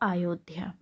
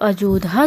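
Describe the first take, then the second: First: The second consonant is a 'y' sound. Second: The second consonant is a 'j' sound. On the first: The speaker calls it right. "इसका शुद्ध रूप हो जाएगा" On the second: The speaker calls it wrong. "अशुद्ध है"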